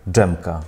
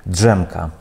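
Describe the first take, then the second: No difference in how they are said.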